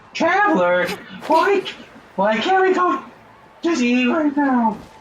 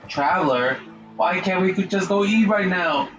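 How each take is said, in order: First: It is said in a squeaky high-pitched voice. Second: It is said in a normal speaking voice. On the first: "it sounds so annoying, that voice" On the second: "I'm gonna just talk regular"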